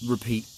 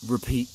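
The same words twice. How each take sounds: The two takes are said the same way.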